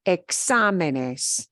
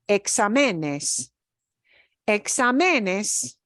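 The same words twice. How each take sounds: First: "exámenes" punched on XA, e-XA-menes; stress on third-to-last syllable. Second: "exámenes" wrongly punched on ME, exa-ME-nes; wrong penultimate stress. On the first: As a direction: hit "xá" in "exámenes", let the rest fall away. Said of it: "The way we pronounce that word is". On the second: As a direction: shift the weight of "exámenes" onto "me". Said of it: "doesn't sound right". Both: Shown as a demonstration.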